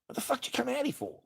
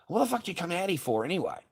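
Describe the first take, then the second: First: Fast, much higher furious shriek; shrieking yell. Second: Fast, louder angry demand; angry yell. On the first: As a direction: scream it at her. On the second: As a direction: demand it, furious. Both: Retold or imitated. Retelling yelling at ex.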